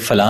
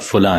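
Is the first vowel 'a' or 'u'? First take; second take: a; u. First: The first vowel is an 'a' sound. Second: The first vowel is a 'u' sound. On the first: The speaker calls it wrong. "ये फला नहीं होता" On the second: The speaker calls it right. "फुला है, फे पे पेश है"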